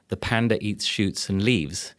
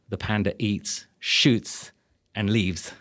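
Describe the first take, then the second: First: It runs on with no pause after eats. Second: There is a clear pause after eats.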